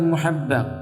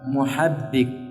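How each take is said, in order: First: The last vowel is an 'a' sound. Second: The last vowel is an 'i' sound. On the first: The speaker calls it wrong. "bukan muhabbak" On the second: The speaker calls it right. "Di kasrah bukan di fathah ya"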